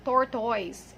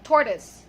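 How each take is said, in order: First: "tortoise" ending in a full oy sound; wrong pronunciation. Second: "tortoise" with a weak schwa ending, TOR-tus; schwa pronunciation. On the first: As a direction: say "tortoise" with OY in the second syllable. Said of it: "it's tortoise". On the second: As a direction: reduce the end of "tortoise" to a short "tus". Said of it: "It's schwa". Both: Shown as a demonstration.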